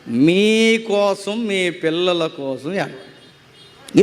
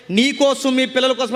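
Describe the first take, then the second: First: Very slow, stretched words sinking low; slow solemn quote. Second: Said in the usual way. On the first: Retold or imitated. Preacher quoting Jesus to weeping women, slow and solemn. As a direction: draw each word out, dropping at the end.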